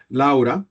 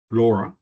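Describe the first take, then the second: First: "Laura" said "la-oo-ra", with an open ow sound; Spanish-style pronunciation. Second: "Laura" said "lora", with a long aw; English-style pronunciation. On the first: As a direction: say "Laura" with a clear "la-oo". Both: Shown as a demonstration. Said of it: "you can do it both".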